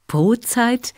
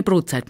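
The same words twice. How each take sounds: First: Brotzeit asked back with a clear rising pitch; puzzled question. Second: Said in the usual way. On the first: Acted. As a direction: echo the odd word Brotzeit as a puzzled question. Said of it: "Was bedeutet das denn?".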